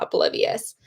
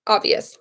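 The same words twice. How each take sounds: First: "oblivious" read aloud with the extra syllables, in place of "obvious"; "oblivious" with the middle syllables "-bliv-i-" in place of "obvious"; misreading. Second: "Obvious" said as OB-vi-us, three syllables; "Obvious" correctly, stress on the first syllable; corrected word. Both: Real, not acted.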